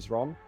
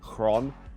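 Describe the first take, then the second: First: The name begins with a Z sound. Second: The name begins with an H sound. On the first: The speaker calls it wrong. "instead of Zron" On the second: The speaker calls it right. "which is what it's meant to be"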